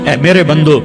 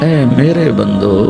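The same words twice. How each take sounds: First: It is said in a plain, neutral tone. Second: It is said in a warm, tender tone. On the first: The speaker calls it wrong. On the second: The speaker calls it right.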